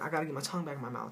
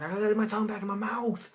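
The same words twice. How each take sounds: First: Rattled off fast; quick retold worry. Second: Loud, high, hammed-up alarm; mock panicked yell. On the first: Storyteller explaining what really happened, quick retold worry. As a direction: rush through it with only mild alarm. Retells the same line more quickly. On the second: Storyteller acting out his tongue flopping out, mock panicked yell.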